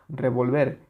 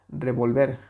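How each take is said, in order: Both takes have the same delivery.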